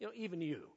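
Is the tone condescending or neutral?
condescending. It is said in a condescending, belittling tone.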